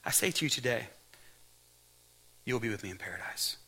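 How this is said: The pause comes after "today".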